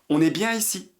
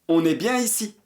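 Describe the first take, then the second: No difference in how they are said.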